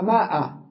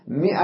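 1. الحركة الأولى صوت aa طويل. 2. الحركة الأولى صوت i قصير.

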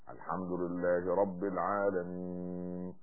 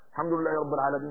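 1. تُتلى الكلمات ببطء وهدوء. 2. تُتلى الكلمات بسرعة وعجلة. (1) "يعني ده أقل شيء" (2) "يا أخي، يعني ليس هذه الصلاة"

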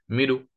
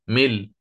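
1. تنتهي الكلمة بحركة خفيفة غير تامة. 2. تنتهي الكلمة بحرف ساكن صريح. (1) "لو أنت أردت أن تأتي بالروم ستقول مل" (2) "لو أنا أردت أن أقف عليها ملء ستصبح مل"

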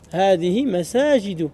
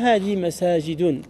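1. Le dernier mot se termine sans son n. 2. Le dernier mot se termine avec un son n.

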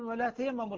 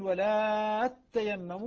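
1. صوت التاء قصير ومفرد. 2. صوت التاء ممدود ومشدد. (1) "فسائر القراء يقولون" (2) "البزي يقول"

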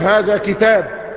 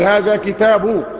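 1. الكلمة الأخيرة تنتهي بحرف ساكن من غير حركة. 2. الكلمة الأخيرة تنتهي بحركة ثم نون. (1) "تقف" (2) "لو عايز تظهر الحركة"

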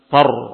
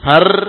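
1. Bunyi r tebal dan berat. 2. Bunyi r tipis dan ringan.

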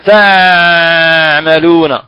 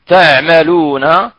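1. يُنطق الحرف بقوة مبالغ فيها. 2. يُنطق الحرف بتوسط دون مبالغة. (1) "لا نقول مثلا" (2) "دون مبالغة"

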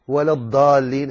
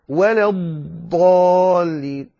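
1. الحرف دال مفخمة، وليس ضادا. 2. الحرف ضاد جانبية من جهة اللسان. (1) "ولا تقل ولا الضالين، هذه دال مفخمة وليس ضادا" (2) "فتقول غير المغضوب عليهم ولا الضالين"

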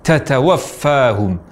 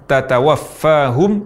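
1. Bunyi t mengeluarkan hembusan napas yang kuat. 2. Bunyi t polos, tanpa hembusan napas tambahan.

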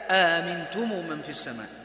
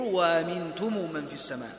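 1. الهمزة الأولى همزة قطع كاملة. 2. الهمزة الأولى تُبدَّل واوًا. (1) "لكن إذا بدأ ما عندي واو، ترجع الهمزة على الأصلية" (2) "يبدل الأولى واوا والثانية بالتسهيل"

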